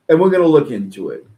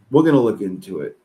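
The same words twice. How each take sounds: First: Emphatic promise. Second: Said in the usual way. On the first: Real, not acted.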